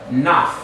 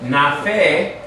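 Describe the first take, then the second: First: The syllable stops right after the f. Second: A short vowel is sounded after the f. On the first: The speaker calls it right. "we have naf" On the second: The speaker calls it wrong. "So instead of having nafe"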